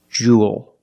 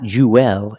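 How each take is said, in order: First: A long oo goes straight into dark L. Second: An extra vowel sound comes before the L. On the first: The speaker calls it right. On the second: The speaker calls it wrong.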